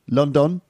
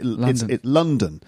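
First: The second syllable has a full vowel like the first. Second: The second syllable has a weak, reduced vowel. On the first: This is how a Spanish speaker would say it. "Just both vowel sounds pronounced the same" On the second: This is the usual English pronunciation. "So the stress is on the first syllable"

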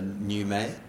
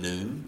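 First: The name has two syllables, ending in 'may'. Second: The name has one syllable, ending in 'm'. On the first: The speaker calls it right. "now I got the correct pronunciation. It's actually French" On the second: The speaker calls it wrong. "Rather than Noom"

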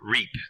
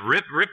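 First: The name has a long vowel, like reap. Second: The name has a short vowel, like rip. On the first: The speaker calls it right. "the correct pronunciation is Reap" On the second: The speaker calls it wrong. "I keep wanting to do Rip"

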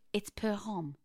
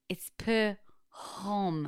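First: It is said plainly, without extra emphasis. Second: It is said with very strong emphasis.

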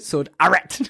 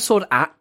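First: The R in 'Art' is hard and strong. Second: The R in 'Art' is soft and weakened. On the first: "How do you even do a hard R?" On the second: "I'm a Sword Art kind of guy"

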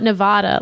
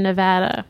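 First: The middle vowel sounds like an open 'ah'. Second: The middle vowel sounds like the vowel in 'blast'. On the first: The speaker calls it wrong. "Not Nevada. Like open up and say, ah" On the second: The speaker calls it right. "Like I had a blast in Nevada"

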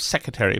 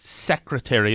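First: Some sounds of the word are dropped or slurred. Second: Every sound of the word is fully pronounced. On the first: The speaker calls it wrong. "instead of secretary" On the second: The speaker calls it right. "could pronounce the word secretary"

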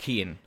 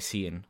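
First: The name is pronounced the Irish way. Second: The name is pronounced the American way. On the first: The speaker calls it right. "in Ireland, like, it's Cian" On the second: The speaker calls it wrong. "in America, people will say Cian"

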